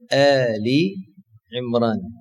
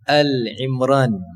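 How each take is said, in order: First: A long i vowel sounds between Al and Imran. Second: Al runs straight into Imran with no vowel. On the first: The speaker calls it right. "Kita kena sebut dengan Ali Imran" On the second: The speaker calls it wrong. "kadang-kadang menyebutnya dengan surah Al-Imran. Ada galat, itu kurang tepat"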